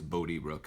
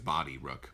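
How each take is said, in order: First: The first vowel sounds like the one in boat. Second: The first vowel sounds like the one in body. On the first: The speaker calls it right. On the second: The speaker calls it wrong. "I don't think it's Body Rook"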